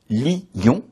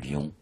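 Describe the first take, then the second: First: The word is split into two syllables. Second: The word is said as one syllable. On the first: "On prononce lion en deux syllabes" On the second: "lion en une syllabe"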